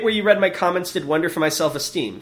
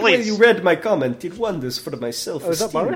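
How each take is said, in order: First: It is read in the speaker's plain accent. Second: It is read in a put-on Russian accent.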